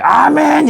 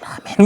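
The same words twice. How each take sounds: First: The word is shouted very loudly. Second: The word is said very softly and quietly. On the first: Loud prayer does not make God hear better. "저 대북방송기 그걸 켜놓고선 한번 떠들어보지 왜. 아멘 이러면서 북한에 듣길 정도로" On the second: Quiet prayer is heard by God just the same. "이불 속에 들어가가지고 속속 아멘 아멘 뭐 이렇게 해봐"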